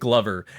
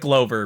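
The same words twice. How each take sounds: First: The first part sounds like 'glove'. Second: The first part does not sound like 'glove'. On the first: It brings to mind degloving. The speaker calls it wrong. "Glover makes me think of degloving" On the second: It sounds fun and whimsical. The speaker calls it right. "I call it Glover because I think that's a better name"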